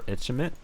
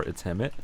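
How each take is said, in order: First: "Itchimit" said softly with a CH, questioning; unsure name pronunciation. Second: "It's Hemit" said softly as its-HEM-it, rising; alternative name pronunciation. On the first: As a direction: offer "Itchimit" quietly as itch-im-it. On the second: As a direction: offer "It's Hemit" quietly, with an audible H. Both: Shown as a demonstration. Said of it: "which is the right pronunciation".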